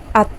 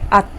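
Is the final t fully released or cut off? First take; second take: cut off; cut off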